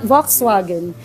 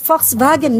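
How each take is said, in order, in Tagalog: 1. Binibigkas ang salita sa paraang Ingles. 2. Binibigkas ang salita sa paraang Aleman. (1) "not Volkswagen" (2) "Volkswagen is Volkswagen"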